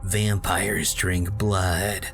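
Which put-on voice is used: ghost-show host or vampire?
ghost-show host. It is read like a ghost-hunting show host. "like that guy from that one show that's on BuzzFeed where they go to scary places"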